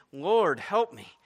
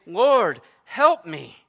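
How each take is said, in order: First: Said in the usual way. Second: Loud, high, imploring cry. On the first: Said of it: "knelt before him, saying". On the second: Acted. Woman falling down before Jesus, crying out loudly. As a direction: call out for help at full voice. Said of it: "just continuing to cry out".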